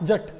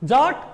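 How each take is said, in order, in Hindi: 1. यह वैसे कहा जाता है जैसे पंजाबी बोलने वाले कहते हैं। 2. यह वैसे कहा जाता है जैसे हिंदी बोलने वाले कहते हैं।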